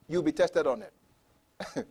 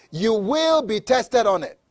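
First: Said in the usual way. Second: WILL stretched and raised, rest falling away; stress on WILL. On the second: Real, not acted. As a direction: lean long and firmly on "will". Repeats warning with emphasis on will.

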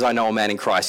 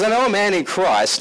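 First: Said in the usual way. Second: "I know a man in Christ" read loud and high; a proud proclamation; emphatic reading. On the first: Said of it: "when he says". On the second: Acted. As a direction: declare it grandly. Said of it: "He says".

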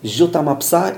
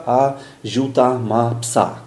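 First: "Ziuta ma psa" as one connected phrase, rising on psa; words run together. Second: "a ziuta ma psa" slowly, every word separate. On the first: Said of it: "patrzeć na kilka słów jednocześnie". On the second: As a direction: read "a ziuta ma psa" one word at a time, like a beginner. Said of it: "słowo po słowie". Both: Shown as a demonstration.

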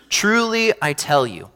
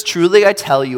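First: Hushed solemn. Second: Said in the usual way. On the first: Shown as a demonstration. Jesus solemnly warns Peter, hushed and grave. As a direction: lean in and hush on Truly. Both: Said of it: "it's time to listen up".

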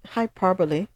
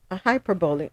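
First: Hyperbole said as "hai-PAH-per-li", garbled; mispronounced word. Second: Hyperbole said as "hai-PER-bo-li", still unsure; corrected try. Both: Real, not acted. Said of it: "what am I saying?".

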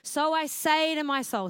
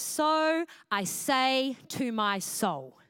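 First: So I say to my soul lifted higher and louder; louder, higher emphasis. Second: So I say to my soul drawn out very slowly, each word weighted; slow emphatic reading. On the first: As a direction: declare So I say to my soul with force. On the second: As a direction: dwell on every word of So I say to my soul. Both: Shown as a demonstration. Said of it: "what I love about it is".

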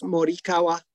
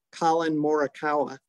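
First: Morikawa said the Japanese way, mo-ri-ka-wa; Japanese pronunciation. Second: Morikawa said the American way, more-uh-KOW-uh; Americanized pronunciation. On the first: Shown as a demonstration. Correcting the name when a friend asks, Japanese-style Morikawa. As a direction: Morikawa in even syllables with a tapped r. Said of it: "What is it?". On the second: Retold or imitated. Retelling how golf commentators say it, Americanized Morikawa. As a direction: Morikawa with a flattened English r. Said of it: "I hear him talking about".

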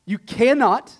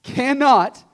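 First: "cannot" said high and loud; emphatic stress. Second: "cannot" louder still, high and punched; emphatic repeat. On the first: Preacher checking everyone is on the same page, "cannot" loud and emphatic. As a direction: drive "cannot" home loudly. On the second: Preacher repeats to the congregation for emphasis, "cannot" punched hard. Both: Real, not acted. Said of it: "I'll repeat for emphasis".

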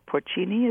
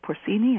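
First: Porcini with a CH, "por-CHEE-nee"; ch pronunciation. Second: Porcini with an S, "por-SEE-nee"; s pronunciation. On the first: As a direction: say the c in porcini as ch, tentatively. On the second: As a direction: say the c in porcini as s, questioning. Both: Shown as a demonstration. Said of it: "I never can pronounce Italian".

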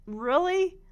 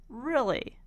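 First: Rising, higher, louder disbelief on really; incredulous really. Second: Really said level and falling, unimpressed; deadpan really. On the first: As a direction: ask really with a jolt of surprise. Incredulous at Peppermint Patty's request. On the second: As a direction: drop the pitch on Really like a weary eye-roll. Repeats it, flat and falling. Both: Real, not acted.

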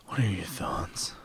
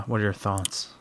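First: Slow unvoiced whisper; leaning in to whisper. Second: Said in the usual way. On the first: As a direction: lean close and whisper it. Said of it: "Tell me your thoughts".

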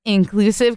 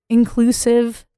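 First: Inclusive? with a rising question tune; upspeak. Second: Inclusive, said high with a rise; upspeak. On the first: Shown as a demonstration. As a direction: end inclusive? on a lift. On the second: Real, not acted. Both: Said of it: "why did you just upspeak that".

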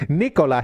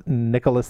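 First: "Nicola" with Italian vowels. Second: "Nicholas" with an English "nick" start. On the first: Correcting the name in the book's title, Nicola said the Italian way. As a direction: say "Nicola" as "nee-ko-la", no final S. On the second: Signing off with the book's title, Nicholas said the English way. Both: Shown as a demonstration. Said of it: "his name is Nicola".

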